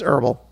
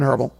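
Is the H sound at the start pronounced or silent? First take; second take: silent; pronounced. First: The word starts without an H sound. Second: The word starts with an H sound. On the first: The speaker calls it right. "the H doesn't feel bad" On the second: The speaker calls it wrong. "I'm not going herbal"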